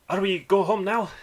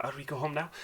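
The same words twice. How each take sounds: First: Put-on high, loud little-boy voice; a small child piping up to his father; young dwarf boy. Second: Put-on high, light child voice; young dwarf boy. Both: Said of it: "like a young person's voice".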